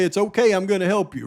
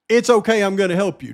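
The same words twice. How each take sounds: First: Quickly rattled-off quote; fast, offhand reading. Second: "okay" hit firmly, then "I'm gonna help you" eases off; deliberate reading that lands on "okay"; stress on okay. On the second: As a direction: lean on "okay", let the rest drop. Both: Shown as a demonstration. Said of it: "But you hear what was just said right there".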